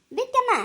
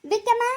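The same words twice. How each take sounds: First: Higher, more insistent second call. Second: Higher, raised call into the house. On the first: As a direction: call her again, pushing harder. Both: Acted. Calling someone out from inside.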